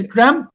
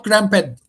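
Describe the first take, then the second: First: "cramped" as one chunk, rhyming like "cramt"; one syllable. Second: "cramped" with a sounded "ped" at the end; two syllables, wrong. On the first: Teacher sums up the right way, "cramped" in one syllable. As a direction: keep "cramped" to a single syllable. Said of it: "just one syllable". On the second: Teacher shows what to avoid, "cramped" as two syllables. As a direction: split "cramped" into "cram-ped". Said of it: "not cramped". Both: Shown as a demonstration.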